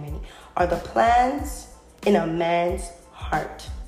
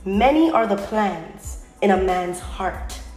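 First: It is read slowly and deliberately. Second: It is read at a normal speed.

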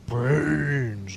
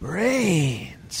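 First: It is said in a growling, beastlike monster voice. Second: It is said in a curious, playful, puppylike voice. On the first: The character comes across as a plain scary monster. The speaker calls it wrong. "talking like a normal just like beast" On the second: The character comes across as curious but dangerous. The speaker calls it right. "like this inquisitive, like playful puppy"

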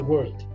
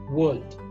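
First: The R in the word is clearly pronounced. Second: The R in the word is not pronounced. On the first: This is the American way of saying it. "when they pronounce the R, right? So like" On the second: This is the British way of saying it. "in British accent, world, you don't say the R"

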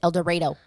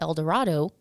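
First: The name is said the way locals say it. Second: The name is said in the usual way. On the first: This is how the town's residents say it. "but they pronounce it El Dorado" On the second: This is how the name is normally known. "which one of the towns is called El Dorado"

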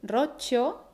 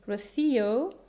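First: It has a long stressed ro and chi sound. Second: It has an English R and an ou vowel.

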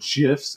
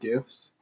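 First: The word starts with a soft j sound. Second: The word starts with a hard g sound. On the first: The speaker calls it wrong. "when people said GIFs" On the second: The speaker calls it right. "instead of GIFs"

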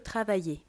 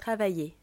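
The two takes are said the same way.

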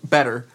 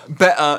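First: It has a soft American-sounding t. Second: It has a crisp British-sounding t. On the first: "instead of better" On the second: "the guy with somewhat of the English accent ... Sometimes he says better"

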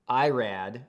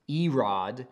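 First: The name is said the English way. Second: The name is said the Hebrew way.

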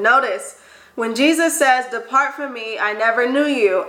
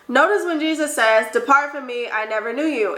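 First: It is read at a slower pace. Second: It is read at a faster pace. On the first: The speaker calls it right. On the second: The speaker calls it wrong.

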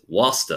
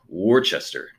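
First: The word is said in a local New England pronunciation. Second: The word is said in an outsider's pronunciation. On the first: This is how the locals say the name. "but they said it's Wasta" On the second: This is how a visitor says the name. "I pronounce it Worcester"

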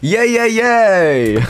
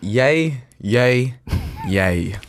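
First: It sounds very happy and upbeat. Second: It sounds flat and unexpressive.

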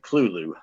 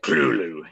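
First: The first syllable is smooth and clean. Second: The first syllable is guttural and thick. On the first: The speaker calls it wrong. "he said it just as civilized like that" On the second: The speaker calls it right. "the first syllable be pronounced very guttural and very thick"

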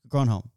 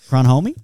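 First: The name ends with a short 'om' sound. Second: The name ends with an 'omie' sound. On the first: "Well done" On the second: "what was the pronunciation last week?"

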